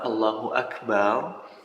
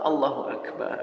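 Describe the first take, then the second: First: The last vowel of Akbar is drawn out long. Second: The last vowel of Akbar is short. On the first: It turns into a plural meaning drums. The speaker calls it wrong. "ketika kita tambah ... ditambah menjadi panjang di ujung bar itu" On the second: God is the greatest. The speaker calls it right. "artinya adalah Allah Maha Besar"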